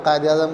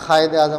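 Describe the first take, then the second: First: कायद Azam with a q or k stop at the start; standard qaf. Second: कायद Azam as khayed-e-azam, q turned into fricative kh; Hyderabadi kh. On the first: Shown as a demonstration. Teacher naming the word before the Hyderabad version, q stop. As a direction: open कायद on a clean back stop. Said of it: "आपके घर में कायद आज़म को". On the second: Teacher imitating Hyderabad Deccan homes, kh for qaf. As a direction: rasp a kh to start कायद. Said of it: "अगर आप हैदराबाद दक्कन से ताल्लुक़ है".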